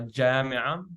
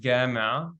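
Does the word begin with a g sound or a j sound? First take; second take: j sound; g sound. First: The word begins with a soft j sound. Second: The word begins with a hard g sound. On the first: This is the common Arabic pronunciation. "instead of ja" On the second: This is how it is often said in Oman. "pronounces it often as a g"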